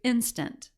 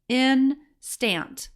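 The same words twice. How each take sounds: First: It is said smoothly as a natural word. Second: It is read stiffly, syllable by syllable. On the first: The speaker calls it right. "We're going to correct it to instant" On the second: The speaker calls it wrong. "might sound like this"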